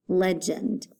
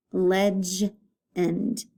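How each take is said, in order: First: Said in the usual way. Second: "legend" broken as ledge... end; split syllables. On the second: Shown as a demonstration. Teacher showing where the line goes, "legend" split after G. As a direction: pause after the G sound in "legend". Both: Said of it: "line after the first consonant".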